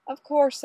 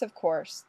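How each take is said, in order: First: A high, eager first "Of course"; emphatic agreement. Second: Said in the usual way. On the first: Acted. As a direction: jump in brightly with "Of course".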